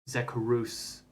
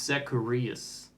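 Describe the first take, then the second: First: The middle vowels run together as one. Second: The middle vowels are said as separate syllables. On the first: The speaker calls it wrong. "people have been mispronouncing my name" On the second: The speaker calls it right. "it's Zacharias"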